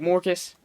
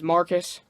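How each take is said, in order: First: The first vowel sounds like 'or'. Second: The first vowel sounds like 'ar'. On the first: This is how the actor says the name. "he pronounces it like Morcus" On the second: This is the usual form of the name. "but his name is Marcus"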